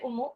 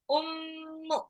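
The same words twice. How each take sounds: First: The m is short with no held nasal hum. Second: The m is held long with a nasal hum. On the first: The speaker calls it wrong. "nggak boleh ummu" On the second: The speaker calls it right. "mim tasdid itu gunnah"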